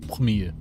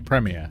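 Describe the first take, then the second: First: It is said with a French-style pronunciation. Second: It is said with a British English pronunciation. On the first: The speaker calls it right. "the origin of the word is from French, so it should be premier" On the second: The speaker calls it wrong. "the British say premiere"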